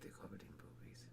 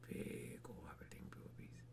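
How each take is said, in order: First: It is said quietly. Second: It is said loudly.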